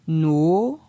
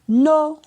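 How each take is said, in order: First: The syllable is said on a rising tone. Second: The syllable is said on a high tone. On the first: "ton montant" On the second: "ton haut"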